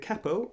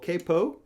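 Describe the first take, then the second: First: The word is said in a non-American way. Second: The word is said in an American way.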